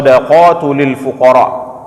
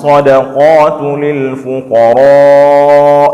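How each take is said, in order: First: The vowel in fuqara is held short. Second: The vowel in fuqara is held long. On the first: The speaker calls it wrong. "Jadi dibaca tidak panjang fuqaranya" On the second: The speaker calls it right. "Dibaca panjang sampai dengan lima harakat"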